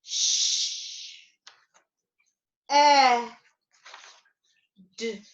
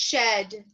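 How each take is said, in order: First: "Sh-, e-, d" split by very long pauses; sounded out. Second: Said in the usual way. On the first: Shown as a demonstration. Teacher filling three boxes with the word's sounds, sounded out. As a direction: stretch "shed" into three isolated sounds. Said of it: "as I sound it out". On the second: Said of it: "bring it back together and say it together".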